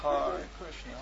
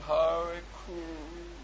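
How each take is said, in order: First: Said in the usual way. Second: Very slow, halting "Hare Krishna", softer; struggling attempt. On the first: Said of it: "Well, say Krishna". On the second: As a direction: stumble through the words. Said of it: "No, I can't say it".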